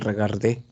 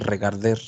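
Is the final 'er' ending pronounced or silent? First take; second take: silent; pronounced. First: The final 'er' ending is silent, ending in 'é'. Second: The final 'er' ending is pronounced with an r. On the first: The speaker calls it right. "La terminación er no suena. ... Digan regarder" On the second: The speaker calls it wrong. "pero no digan regarder"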